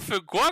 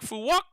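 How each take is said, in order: First: The second word begins with a K sound. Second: The second word begins with a W sound. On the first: The speaker calls it wrong. "it's not Phu Quoc" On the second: The speaker calls it right. "it's like Phu Wok"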